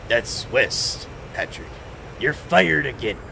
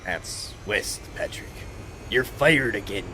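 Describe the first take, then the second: First: It is said in a put-on Mister Krabs voice. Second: It is said in a put-on Squidward voice. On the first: The speaker calls it right. "it was Mister Krabs" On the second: The speaker calls it wrong. "I did a Squidward voice at first"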